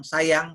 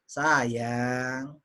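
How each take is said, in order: First: It is said plainly, without feeling. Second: It is said warmly, with lively feeling. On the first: "biasa aja"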